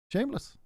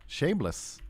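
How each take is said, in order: First: Shameless squeaked much higher and softer with a rise; high mock outrage. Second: Softer, scornful verdict on Shameless; disgusted. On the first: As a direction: wail Shameless in a high indignant pitch. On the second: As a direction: drop the voice and sneer Shameless. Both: Real, not acted. Complaining about the invaders.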